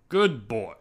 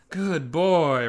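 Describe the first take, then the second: First: It is said in a plain, flat manner. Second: It is said with exaggerated, gushing enthusiasm. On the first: The speaker is giving ordinary, unexcited praise. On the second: The speaker is lavishly praising.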